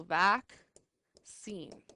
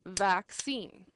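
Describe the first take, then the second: First: Vaccine slowed right down, vac and cine pulled apart; split into syllables. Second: Said in the usual way. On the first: Shown as a demonstration. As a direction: stretch vaccine out slowly syllable by syllable. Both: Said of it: "split up the double letters".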